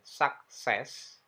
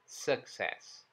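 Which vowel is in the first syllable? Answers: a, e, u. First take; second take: a; e. First: The first vowel sounds like a. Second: The first vowel sounds like e. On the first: The speaker calls it wrong. "bukan sak" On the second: The speaker calls it right. "tapi e"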